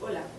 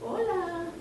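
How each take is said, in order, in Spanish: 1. El tono se mantiene bastante plano y sencillo. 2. El tono sube y baja mucho, con vocales exageradas. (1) "no le dices hola" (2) "marcar más la diferencia de frecuencia entre I y A"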